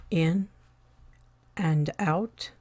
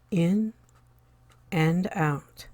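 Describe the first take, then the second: No difference in how they are said.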